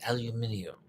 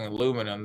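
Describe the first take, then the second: First: "aluminium" said the British way, al-yoo-MIN-ee-um; British pronunciation. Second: Said in the usual way. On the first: Shown as a demonstration. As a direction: give "aluminium" five syllables, stressed on MIN. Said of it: "they say aluminium". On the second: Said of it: "instead of saying aluminum".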